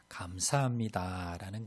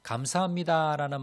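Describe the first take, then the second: First: Said in the usual way. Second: Higher and brighter, said with real gratitude; 감사합니다 said raised and glad; heartfelt thanks. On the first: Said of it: "그래서". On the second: Shown as a demonstration. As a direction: lift 감사합니다 up warmly. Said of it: "마음이 좀 따뜻해집니다".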